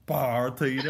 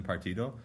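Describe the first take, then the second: First: "partido" with a louder, stretched first syllable; exaggerated "partido". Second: Said in the usual way. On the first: Shown as a demonstration. Man proposing a new way to say it in Peru, exaggerated "partido". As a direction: draw out the "par" in "partido". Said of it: "I'll try to get people to say". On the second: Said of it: "rather than partido".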